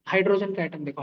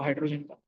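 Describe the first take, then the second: First: Said in the usual way. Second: Soft echo. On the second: Shown as a demonstration. Teacher guiding students' imagination, soft lower echo. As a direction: repeat hydrogen का softer and lower, half to yourself. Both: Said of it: "एक atom देखो अपने आंखों के सामने".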